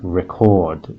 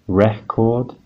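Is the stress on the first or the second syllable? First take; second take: second; first. First: The stress falls on the second syllable. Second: The stress falls on the first syllable. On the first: It is a verb: to make a copy of something. "stress on the second syllable, chord" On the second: It is a noun: a disc you play. "stress on the first syllable, re"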